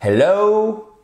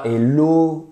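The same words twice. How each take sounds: First: High, open "hello" gliding from O to OO; English diphthong in HELLO. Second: "hello" as "ello", pure rounded O; French-style HELLO. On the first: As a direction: stretch the O of "hello" into OH-OO. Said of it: "exactement comme dans le mot". ("hello" avec diphtongue anglaise bien ouverte) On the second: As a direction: drop the H and purse lips on "hello". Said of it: "On ne dit pas hello". ("hello" à la française, sans diphtongue) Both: Shown as a demonstration.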